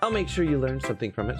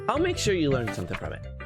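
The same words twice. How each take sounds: First: The character voice sounds sultry and sexual. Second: The character voice sounds plain, not sexual.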